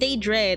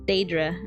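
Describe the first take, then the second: First: The first vowel sounds closer to E. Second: The first vowel sounds closer to A. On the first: The speaker calls it wrong. "I was saying Daedra, like kind of closer to the E instead of an A" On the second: The speaker calls it right. "Okay, there"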